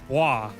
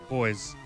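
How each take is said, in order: First: The word is said with French pronunciation. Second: The word is said with English pronunciation. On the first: "or maybe it's French. Maybe it's Bois" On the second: "that's named boys"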